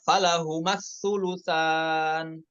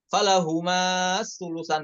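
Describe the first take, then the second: First: The vowel before the s is short. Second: The vowel before the s is drawn long. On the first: The speaker calls it right. "Maka huruf madnya itu dihapus" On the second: The speaker calls it wrong. "bukan dibaca panjang lagi ... Itu salah ya"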